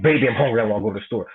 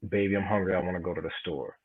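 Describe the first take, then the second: First: It is said in an angry, aggressive tone. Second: It is said in a plain, neutral tone. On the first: "Or you could say it angry like you just punched in her face like" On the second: "You could say it like you know regular like that"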